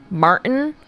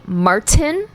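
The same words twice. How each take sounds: First: Martin with the t swallowed before the n; standard Martin. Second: Martin with a fully sounded t, Mar-tin; regional Martin. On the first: Contrasting a regional accent with the usual name, standard Martin. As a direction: say Martin as Mar'n, no released t. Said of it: "instead of saying the name". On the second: Showing how PNW people say the name, regional Martin. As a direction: draw out Martin, releasing the t clearly. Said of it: "they'll say Martin". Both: Shown as a demonstration.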